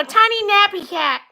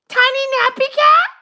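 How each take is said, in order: First: Said in the usual way. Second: "Tiny nappy cat" with a rising end on "cat"; puzzled rise through "nappy cat"; questioning echo. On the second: Pretend. Repeats the name as a question.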